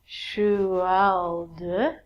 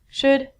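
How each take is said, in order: First: The L sound is pronounced in the word. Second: The L sound is silent in the word. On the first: The speaker calls it wrong. "You look at this word and go" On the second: The speaker calls it right. "All of these L's are silent. So it sounds like"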